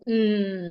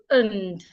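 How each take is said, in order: First: The vowel disappears, leaving only a consonant. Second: Its vowel is reduced to a weak schwa. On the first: "or you can go mm" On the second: "when you want to reduce it, the vowel there becomes a shua"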